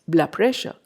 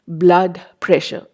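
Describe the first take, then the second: First: The d of blood changes toward b. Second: Blood ends with a clear d sound.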